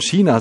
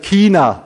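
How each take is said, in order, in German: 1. China sagt man regional deutsch. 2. China sagt man österreichisch. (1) "in manchen Gegenden in Deutschland China sagt" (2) "wir sagen in Österreich China"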